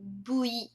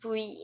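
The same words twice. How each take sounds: First: It starts with a sound close to B. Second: It starts with a buzzing lip-teeth V sound. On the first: "Eles falam, tipo, V ... Fica quase como se fosse um B" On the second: "Em japonês não tem, tipo, V com essa pronúncia"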